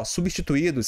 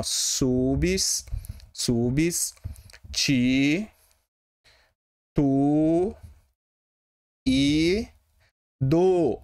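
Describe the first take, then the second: First: Said in the usual way. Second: "Subs, subs, ti, tu e do" with long pauses between syllables; split into syllables. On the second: Shown as a demonstration. Teacher re-dividing substituídos for better understanding, syllable by syllable. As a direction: draw out each syllable of "Subs, subs, ti, tu e do" separately. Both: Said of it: "substituídos se separa assim".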